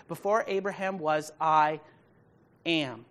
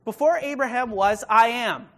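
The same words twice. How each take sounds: First: Measured quote of Jesus, normal level; calm reading of the verse; quoted plainly. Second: "Before Abraham was, I am" proclaimed higher and louder, every word weighted; emphatic loud quote. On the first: Pastor quoting Jesus to the congregation, steady and plain. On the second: Pastor booming Jesus' words at the congregation, loud and emphatic. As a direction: ring it out as a bold declaration. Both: Shown as a demonstration. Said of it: "There's nothing after that".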